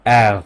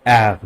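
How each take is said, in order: No difference in how they are said.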